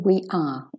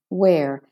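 First: It is said as two full words. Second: It is said as one contracted syllable. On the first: The speaker calls it wrong. "I don't want to hear we are" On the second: The speaker calls it right. "We're finalizing"

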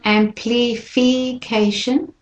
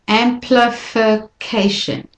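First: The two middle i vowels are said fully. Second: The two middle i vowels are said weakly. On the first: The speaker calls it wrong. "So it's not amplification" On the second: The speaker calls it right. "the LI and the FI, those two I's, are said more weakly"

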